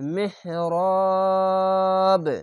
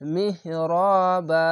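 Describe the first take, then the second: First: The word ends on a bouncing, echoing b sound. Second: The word ends on a short ba syllable. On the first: The reader stops at this word. The speaker calls it wrong. "এভাবে কলকলা হতো, যদি থামতে গেলে" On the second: The reader joins this word to the next one. The speaker calls it right. "কলকলা না হয়ে বা যাবার বা এরকম উচ্চারণ হবে"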